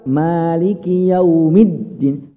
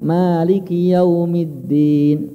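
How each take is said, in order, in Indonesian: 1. Konsonan ganda diucapkan dengan tekanan yang ditinggikan. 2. Konsonan ganda diucapkan datar tanpa tekanan. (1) "ditekan Pak. Ini nabar namanya" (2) "Jangan ... enggak ada tekanannya"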